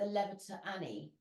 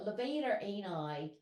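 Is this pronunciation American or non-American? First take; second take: non-American; American. First: It uses a non-American pronunciation. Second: It uses an American pronunciation. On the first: "I've always called it the levator ani" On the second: "they were American"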